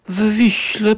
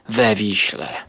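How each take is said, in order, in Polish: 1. Przyimek to samo w, bez samogłoski. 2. Przyimek ma samogłoskę po w. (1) "To tak bardziej wysublimowanie brzmi" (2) "ja wolę mówić we Wiśle, choć może to brzmi jakoś tak bardziej chamsko"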